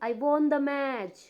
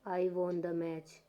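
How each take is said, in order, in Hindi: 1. यह लय, बीट और साफ़ ज़ोर के साथ बोला जाता है। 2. यह धीरे और धीमी आवाज़ में बोला जाता है, इसमें कोई जोश नहीं। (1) "स्ट्रक्चर के हिसाब से और बीट के साथ" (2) "धीमे स्वर में आराम से बोलती हूँ"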